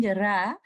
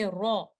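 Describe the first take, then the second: First: RA with a light, thin 'ah', tongue back kept low. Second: RA thick and dark, almost 'raw'; heavy full-mouthed ra. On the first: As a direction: say 'ra' light, without the full mouth. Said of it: "Instead of saying ra". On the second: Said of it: "with thickness and with full mouth". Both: Shown as a demonstration.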